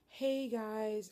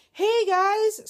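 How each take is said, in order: First: Said in the usual way. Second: Much higher and louder, bursting with good news; excited greeting. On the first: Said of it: "and it'd be like". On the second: Retold or imitated. A clinic nurse calling with good news, bright excited greeting. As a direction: sing it out like the news is great. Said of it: "But today we got the call like".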